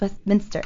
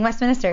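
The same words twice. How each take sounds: First: It is said like the London district's name. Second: It is said like the Maryland town's name. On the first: The speaker calls it right. "no, it's Westminster" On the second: The speaker calls it wrong. "I'm so used to saying Westminster because it's not far from where I grew up"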